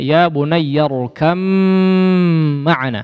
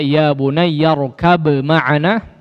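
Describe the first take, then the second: First: The b merges into a long nasal m. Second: The b is pronounced clearly before the m. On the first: The speaker calls it right. "diidghamkan dengan disertai gunnah yang dipanjangkan" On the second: The speaker calls it wrong. "tidak dibaca izhar, tidak dibaca"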